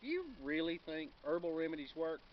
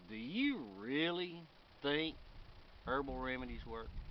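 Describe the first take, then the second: First: It is asked in a sincere, neutral tone. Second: It is asked in a mocking, sarcastic tone. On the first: It is an honest question. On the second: The asker doubts that they work.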